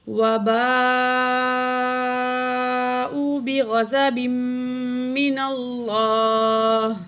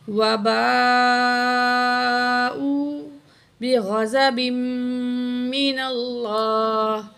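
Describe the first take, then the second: The two takes are said the same way.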